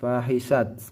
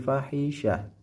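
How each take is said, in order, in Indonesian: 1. Kata ini berakhir dengan bunyi T. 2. Kata ini berakhir dengan bunyi H. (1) "Jadi bukan fahisat" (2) "tapi fahisyah"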